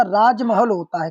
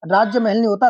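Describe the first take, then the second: First: राजमहल said as one joined word, short राज with no य sound; teacher giving the right form राजमहल as one smooth word; correct compound said. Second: राज्य महल said as two separate words with full राज्य; teacher showing the wrong form राज्य महल, saying राज्य fully before महल; wrong compound said. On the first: Teacher to students giving the correct word, राजमहल run together. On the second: Teacher to students showing the wrong spelling, राज्य महल spoken apart. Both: Shown as a demonstration.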